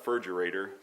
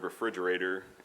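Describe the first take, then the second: First: The opening syllables are dropped and blurred together. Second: Every syllable of the word is said. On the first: "his pronunciation of the word refrigerator as uh, furgerator" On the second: "the word refrigerator"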